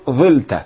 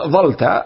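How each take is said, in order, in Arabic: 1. الصوت الأول هو 'i' مغلق. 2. الصوت الأول هو 'a' مفتوح. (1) "أو إذا كسرتها وحذفت اللام الثانية تقول ظلت" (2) "فلو حذفت اللام الأولى أو الثانية تخفيفا فقلت ظلت"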